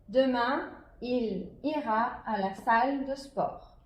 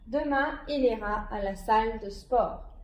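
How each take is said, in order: First: It is read at a slower pace. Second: It is read at a quicker pace.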